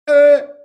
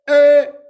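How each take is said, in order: First: The voice sounds darker and fuller. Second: The voice sounds darker and fuller.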